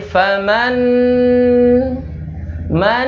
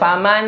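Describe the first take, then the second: First: The nasal hum on the n is held. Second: The nasal hum on the n is dropped. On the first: The speaker calls it right. "Contohnya tadi" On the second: The speaker calls it wrong. "jangan dibaca faman. Ininya hilang. Apa dengungnya hilang?"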